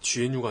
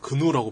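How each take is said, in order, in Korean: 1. 이 이름은 글자 하나하나 읽습니다. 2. 이 이름은 한 단어로 읽습니다. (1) "지엔유가 아니라" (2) "근우라고 발음해야 맞는 거 아니에요?"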